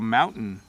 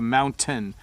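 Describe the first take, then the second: First: The t is softened and quickly said. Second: The t is pronounced fully and hard. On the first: "when I say it fast ... I really soften that T sound" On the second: "if I emphasize the word mountain ... You hear the t sound really hard"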